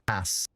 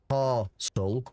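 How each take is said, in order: First: The first vowel is short, like in 'cat'. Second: The first vowel is long, like in 'car'. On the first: "but it's Cass in uh northern" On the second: "Like there's an R in castle when you uh when you say it in the southern way"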